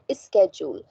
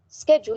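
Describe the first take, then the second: First: A vowel sound is added before the s. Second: The word starts directly with the s sound. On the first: The speaker calls it wrong. "you say is schedule" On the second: The speaker calls it right. "when you have to say schedule"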